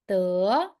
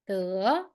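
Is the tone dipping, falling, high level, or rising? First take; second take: rising; rising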